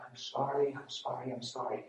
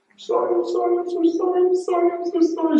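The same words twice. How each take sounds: First: Quiet, understated retold sorry; retold soft apology. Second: Very high, loud crying squeal; imitated bawling. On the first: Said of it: "came running and found me saying". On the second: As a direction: wail the apology like a bawling wife, hammed-up. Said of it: "She's running to me bawling".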